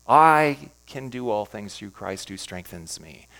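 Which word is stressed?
I. The word "I" is stressed.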